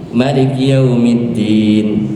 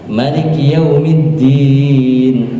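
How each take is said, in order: First: The final long vowel is held for two counts. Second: The final long vowel is held for four counts. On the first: "dua harkat" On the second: "empat harkat"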